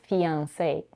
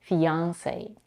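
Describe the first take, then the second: First: The stress is on the last syllable. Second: The stress is on the second syllable. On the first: "the primary stress is on the last syllable" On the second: "many Americans stress on the second syllable"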